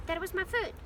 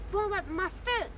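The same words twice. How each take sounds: First: Milder, higher-pitched protest; pained complaint. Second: Higher, louder pained complaint; pained gasp. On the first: Hermione complains about her foot, mild pained protest. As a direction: protest it with less force, pitched up. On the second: Hermione scolds Ron for treading on her, pained outcry. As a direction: scold him, voice jumping up. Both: A narrator's reading. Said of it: "gasped Hermione".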